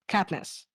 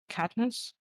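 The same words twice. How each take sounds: First: The name is said more loudly. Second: The name is said very quietly.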